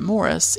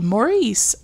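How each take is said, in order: First: The name is said the British way. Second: The name is said the American way.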